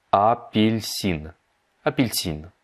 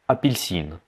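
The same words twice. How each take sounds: First: "апельсин" drawn out syllable by syllable; slowed-down model. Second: Said in the usual way. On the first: Shown as a demonstration. Teacher breaks down the Russian for orange, very slow. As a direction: stretch "апельсин" very slowly, each syllable apart.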